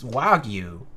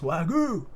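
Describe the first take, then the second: First: The word ends with a 'gyoo' sound. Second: The word ends with a 'goo' sound, like ragu. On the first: The speaker calls it right. "but it's it's wagyu" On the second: The speaker calls it wrong. "he says wagyu, sounds like ragu"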